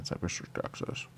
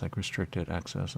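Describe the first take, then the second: First: Restricted access whispered, breathy and secret. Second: Said in the usual way. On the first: Shown as a demonstration.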